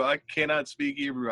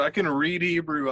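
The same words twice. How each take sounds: First: "cannot" stressed, falling to a close. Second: "can" leaned on with a falling end; stress on can. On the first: Admitting to his friend what he can't do, stress on cannot. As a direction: punch "cannot" in "I cannot speak Hebrew". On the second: Correcting himself to his podcast friend, stress on can. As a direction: lean on "can" in "I can read Hebrew". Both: Shown as a demonstration.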